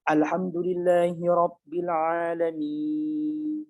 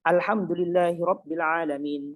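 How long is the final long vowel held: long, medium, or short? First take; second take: long; short. First: The final long vowel is held very long. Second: The final long vowel is kept short. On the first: "panjang seperti itu nggak wajib" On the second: "atau bahkan dia baca pendek"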